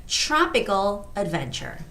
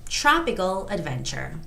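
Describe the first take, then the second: No difference in how they are said.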